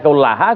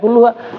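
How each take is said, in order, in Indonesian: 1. Vokal setelah kull adalah a. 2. Vokal setelah kull adalah u. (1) "Tadi kullaha salah" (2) "Yang betul ya kulluha"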